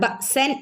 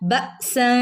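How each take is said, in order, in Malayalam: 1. n വ്യക്തമായി ഉച്ചരിക്കുന്നു, മറഞ്ഞിട്ടില്ല. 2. n മൂക്കിലെ മൂളലോടെ മറഞ്ഞിരിക്കുന്നു. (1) "ബഅ്സൻ എന്ന് ഓതാൻ കഴിയില്ല" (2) "എന്നിങ്ങനെ മറച്ച് മണിച്ചോദനം"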